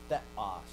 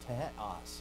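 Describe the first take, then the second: First: It begins with a th sound, tongue between teeth. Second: It begins with a breathy t sound behind teeth. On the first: The speaker calls it wrong. "not theos" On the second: The speaker calls it right. "It was an alveolar aspirate"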